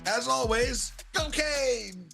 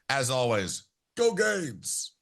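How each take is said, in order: First: It is said energetically, in a high falsetto. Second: It is said weakly, with little energy. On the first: The speaker calls it right. "a little falsetto in that one" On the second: The speaker calls it wrong. "he limped into that one pretty bad"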